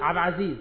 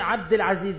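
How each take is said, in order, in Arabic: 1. الـ'al' والـ'd' بيتحذفوا. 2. الـ'al' والـ'd' اللي في الآخر بيتنطقوا كاملين.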